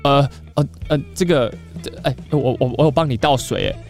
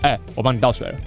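First: It sounds hesitant, stammering and deferential. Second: It sounds relaxed, confident and caring.

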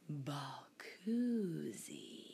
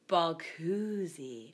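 First: It is said in a put-on sexy voice. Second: It is said in a normal voice.

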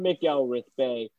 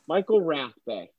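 First: The surname begins with the sound 'Mac'. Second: The surname begins with the sound 'Michael'. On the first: The speaker calls it wrong. "It is nowhere near McElrath Bay" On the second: The speaker calls it right. "it is Ray Michael Rath Bay"

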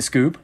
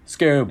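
First: The name is said plainly, like a question. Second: The name is said with a held-back exclamation. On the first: "you didn't say the name right" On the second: "I gotta, like, yell it"

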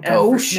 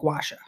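First: The word is said as one syllable. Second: The word is said as two syllables. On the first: The speaker calls it wrong. "not gauche" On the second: The speaker calls it right. "It's how you pronounce it"

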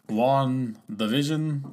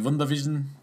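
First: It is said in a vampire-count voice. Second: It is said with a German accent. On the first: "like the count" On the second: "like the German"

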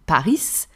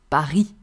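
First: The final S sound is pronounced. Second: The final S sound is silent. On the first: The speaker calls it wrong. "if we were to pronounce the silent letter Paris" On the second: The speaker calls it right. "We do not pronounce the S at the end"

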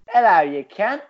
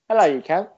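First: It is said in a put-on Australian accent. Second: It is said in the speaker's ordinary accent.

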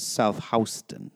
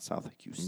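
First: Houston is said with the New York pronunciation. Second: Houston is said with its usual pronunciation. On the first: It names the New York street. The speaker calls it right. "Soho is South Houston" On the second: It names the Texas city. The speaker calls it wrong. "not South Houston"

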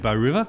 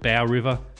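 First: Bow is pronounced the Australian way. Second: Bow is pronounced the American way. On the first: This is the local name of the song. The speaker calls it right. "we would say Bow River" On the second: This is how outsiders misread the name. The speaker calls it wrong. "from America chose to call it Bow River"

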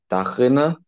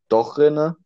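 First: The first vowel is an open a sound. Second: The first vowel is an o sound. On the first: "dass A zu O wird" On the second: "dass A zu O wird"

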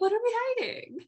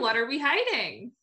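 First: It is said more quietly. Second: It is said at normal volume.

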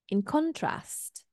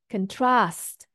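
First: The stress is on the first syllable. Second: The stress is on the second syllable. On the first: It is a noun: a difference. "stress falls on the first syllable" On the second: It is a verb: to compare. "trust is our stress. Okay, it's a second syllable stress"

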